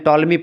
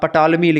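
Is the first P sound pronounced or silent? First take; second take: silent; pronounced. First: The word starts with a 't' sound. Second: The word starts with a 'p' sound. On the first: The speaker calls it right. "पी silent होता है" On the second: The speaker calls it wrong. "लिखा रहता है एक प्रकार से पटॉलमी"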